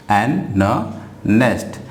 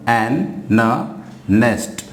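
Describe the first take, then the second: No difference in how they are said.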